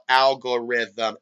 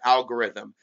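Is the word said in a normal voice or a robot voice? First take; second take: robot voice; normal voice. First: It is said in a robot voice. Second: It is said in his normal voice.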